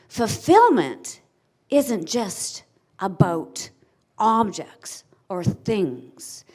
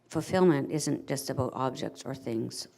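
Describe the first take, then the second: First: The voice is lively with varied, passionate pitch. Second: The voice is flat with little pitch movement. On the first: The speaker engages the audience with passion. The speaker calls it right. "stand proud, stand up and say" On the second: The speaker will lose the audience's attention. The speaker calls it wrong. "head down and no influx in your tone"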